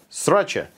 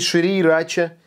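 First: The word is shortened, with sounds swallowed. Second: The word is said in full, all syllables. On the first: "в Америке буквы проглатываются" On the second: "почему не шрирача?"

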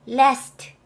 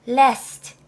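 The two takes are said the same way.

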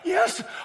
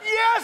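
First: The word sounds hesitant and unsure. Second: The word sounds joyful and excited. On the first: Surprised the person made it at all. The speaker calls it wrong. "Not like" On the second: Overjoyed that the person arrived. The speaker calls it right.

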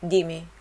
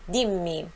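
First: The m is short and weak. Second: The m is long and strong. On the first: The speaker calls it wrong. "não é dimmi" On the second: The speaker calls it right. "nós temos dois M's, forte, som forte"

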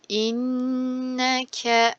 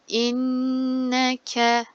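The two takes are said the same way.

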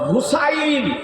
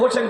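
First: The name ends with a two-vowel 'ain' sound. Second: The name ends with a single 'en' sound. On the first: The speaker calls it right. "আসল নামটা হলো হুসাইন" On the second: The speaker calls it wrong. "বাংলাতে করে দিয়েছে হোসেন"

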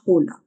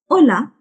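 First: The word begins with an audible H sound. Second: The word begins directly with the vowel. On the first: The speaker calls it wrong. "It's not hola" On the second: The speaker calls it right. "H is always silent"

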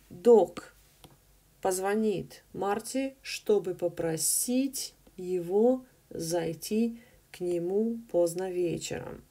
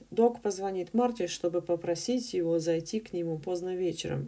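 First: The sentence is read slowly and carefully. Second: The sentence is read at a natural speed.

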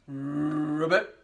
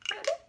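First: It is said in a big deep voice. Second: It is said in a tiny high voice.

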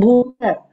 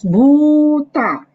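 First: The final vowel is kept short. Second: The final vowel is held long. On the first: The speaker calls it wrong. "Not Buddha" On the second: The speaker calls it right. "now it's Buddha"

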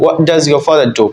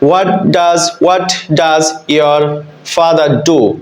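First: The t of 'what' is dropped. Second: The t of 'what' is clearly pronounced. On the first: The speaker calls it right. "কিন্তু নেটিভরা বলে" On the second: The speaker calls it wrong. "এই সেন্টেন্সটা যদি বাংলাদেশের মতো বলি"

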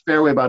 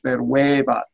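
First: The stress falls on a syllable other than 've'. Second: The stress falls on the syllable 've'. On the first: The speaker calls it wrong. "It's not fairwaybat" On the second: The speaker calls it right. "it's fairwaybat"

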